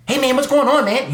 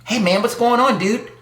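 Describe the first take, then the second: First: Higher, louder mock dorky greeting; mocking a corny dude. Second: Mocking a corny dude. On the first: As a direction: play the uncool guy, overly chipper. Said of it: "You don't want guys talking like that". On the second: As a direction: ham up an uncool guy saying hi. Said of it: "You don't want those t-, kind of guys".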